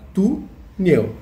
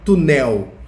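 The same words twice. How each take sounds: First: The stress is on the first syllable. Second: The stress is on the second syllable. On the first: The speaker calls it right. "a gente fala túnel" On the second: The speaker calls it wrong. "A gente não fala túnel"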